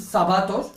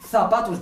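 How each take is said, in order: First: "zapatos" with s at the start; Z not pronounced. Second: "zapatos" with th at the start; Castilian Z. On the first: Teacher showing a slip in Castilian, s for Z in "zapatos". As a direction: say "zapatos" as sapatos. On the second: Teacher comparing with Castilian, th in "zapatos". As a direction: lisp the Z of "zapatos" as in Spain. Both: Shown as a demonstration. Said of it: "al no pronunciar la Z".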